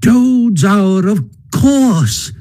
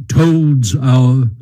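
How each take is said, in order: First: High-pitched, delighted Mole voice; delighted cry. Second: Badger's grave, measured statement of TOAD'S HOUR; solemn answer. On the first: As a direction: cry it out high, thrilled to have understood. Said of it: "cried the Mole delightedly". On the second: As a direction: state it gravely, with little lift. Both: A narrator's reading.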